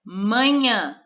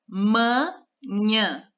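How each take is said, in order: First: Said in the usual way. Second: Manhã split into ma and nhã with a pause; syllable by syllable. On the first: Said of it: "vamos olhar por palavra". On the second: Shown as a demonstration. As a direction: say manhã in two separate beats. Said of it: "duas sílabas". (manhã separando as sílabas)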